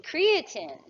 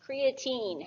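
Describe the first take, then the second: First: Creatine ending in a short "tin"; short-ending pronunciation. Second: Put-on creatine ending in a long "teen"; long-ending pronunciation. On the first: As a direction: say creatine as CREE-uh-tin, last vowel reduced. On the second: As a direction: say creatine as cree-uh-TEEN, drawn out. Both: Shown as a demonstration. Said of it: "however you wanna pronounce it".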